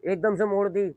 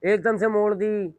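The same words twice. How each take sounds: First: Said in the usual way. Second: "एकदम से मोड़ दी" slower, louder, higher, punching "एकदम"; emphatic. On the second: Shown as a demonstration. Teacher showing students a sudden bend, emphatic. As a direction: hit "एकदम" hard, like a sudden sharp turn. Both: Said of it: "देखें".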